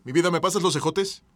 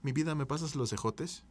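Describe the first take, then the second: First: Louder, pushier request; louder demanding ask. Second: Softer, gentle request; soft ask. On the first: Demanding green beans from partner, louder and pushy. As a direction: bark the request at your partner. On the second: Sweet-talking partner for the green beans, softly. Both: Shown as a demonstration. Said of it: "no es lo mismo que".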